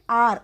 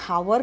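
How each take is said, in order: First: The word starts with a vowel, no h. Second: The word starts with an audible h sound. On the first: The speaker calls it right. "उच्चार एच O यू आर आर" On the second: The speaker calls it wrong. "आपण हावर नाही बोलत"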